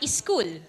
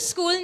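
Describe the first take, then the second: First: An extra vowel sound comes before the S. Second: The word begins directly with the S sound. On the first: The speaker calls it wrong. "not e-school" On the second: The speaker calls it right. "I go to school"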